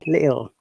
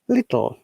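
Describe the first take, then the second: First: The middle t sound is dropped. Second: The middle t sound is clearly pronounced. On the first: "Cockney accent, they don't pronounce the T" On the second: "in R P accent"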